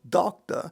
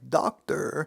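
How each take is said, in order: First: The final r sound is dropped. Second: The final r sound is clearly pronounced. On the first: "began favoring a non-rhotic accent" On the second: "taking words like doctor"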